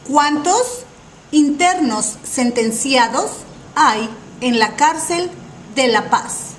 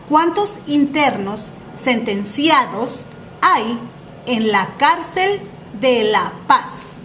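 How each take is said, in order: The two takes are said the same way.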